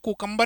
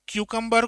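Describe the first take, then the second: First: The first syllable sounds like 'koo'. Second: The first syllable sounds like 'kyoo'.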